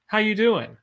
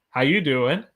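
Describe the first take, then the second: First: "How you doing?" starting high, falling on "doing"; "doing" dropping at the end; native intonation. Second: Said in the usual way. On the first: Shown as a demonstration. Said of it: "knowing when your voice goes up and when it goes down". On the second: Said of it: "knowing when your voice goes up".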